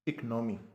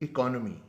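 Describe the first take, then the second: First: The vowel after the first syllable is dropped. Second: The vowel after the first syllable is pronounced. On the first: The speaker calls it wrong. "इस लफ्ज़ को यूँ pronounce करते हैं" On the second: The speaker calls it right. "जबकि लफ्ज़ है इकोनॉमी"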